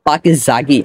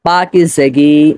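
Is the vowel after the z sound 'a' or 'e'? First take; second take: a; e. First: The vowel after the z is an open a. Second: The vowel after the z is a front e. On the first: The speaker calls it wrong. "অনেকে রয়েছেন যারা বলেন পাকিজাগি, আসলে পাকিজাগি না" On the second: The speaker calls it right. "উচ্চারণ হবে পাকিজেগি, মানে জে এর নিচে জের হবে"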